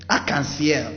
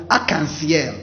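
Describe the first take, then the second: No difference in how they are said.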